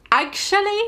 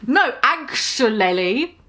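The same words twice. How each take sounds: First: "Actually?" jumps much higher as a teasing question. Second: Said in the usual way. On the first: Acted. Lupin repeats "Actually?" high to sell his pun. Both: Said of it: "Get it?".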